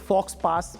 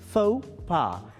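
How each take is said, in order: First: The x and s sounds are pronounced. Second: The x and s sounds are silent. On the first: The speaker calls it wrong. "is it fox pass or something? No" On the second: The speaker calls it right. "this is faux pas"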